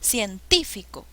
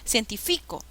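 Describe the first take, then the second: First: The stress is on the second syllable. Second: The stress is on the third syllable. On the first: The speaker calls it right. "suena mejor" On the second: The speaker calls it wrong.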